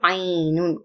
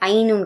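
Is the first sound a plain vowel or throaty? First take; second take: throaty; plain vowel. First: It starts with a tight throaty sound. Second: It starts with a plain vowel sound. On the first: The speaker calls it right. "கொஞ்சம் ஆலிஃப் உச்சரிப்பு வராம பாத்துக்கணும்" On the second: The speaker calls it wrong. "ஐநூன் கிடையாது"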